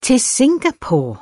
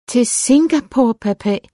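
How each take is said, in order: First: High-pitched startled cry, falling at the end; near-scream. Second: High, louder plea to a father; dismayed repeat. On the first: Daughter hears she is being sent abroad, near-scream of a question. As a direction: cry it out in alarm, pitched well up. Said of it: "lød nærmest som et skrig". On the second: Daughter questions her father about being sent abroad, dismayed repeat. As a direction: repeat it in high-pitched disbelief. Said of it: "gentog hun". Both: A narrator's reading.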